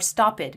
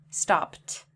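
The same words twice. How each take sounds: First: The ending is an extra 'id' syllable. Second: The ending is a plain 't' sound. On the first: The speaker calls it wrong. "read it like talked or stopped" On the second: The speaker calls it right. "It's talked, stopped"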